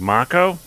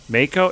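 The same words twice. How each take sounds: First: "Mako" said MAH-koh, as a question; first vowel as AH. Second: "Mako" said MAY-koh, as a question; first vowel as AY. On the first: Asking chat which is wrong, "Mako" as MAH-koh. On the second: Trying the other pronunciation, "Mako" as MAY-koh. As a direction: say "Mako" with a long A, rising like a question. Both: Shown as a demonstration. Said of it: "What are you pronouncing wrong?".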